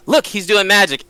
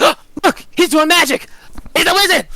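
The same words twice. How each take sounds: First: Mildly raised, pointing it out; a light touch of pretend amazement; staged alarm. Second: Very high, gasping mock alarm; fake shock. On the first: Penny pointing out a goblin to another, mild staged alarm. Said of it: "and she's like". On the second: Penny framing a goblin as a wizard, high exaggerated alarm. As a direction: squeal the accusation in pretend horror. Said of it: "and I'm like".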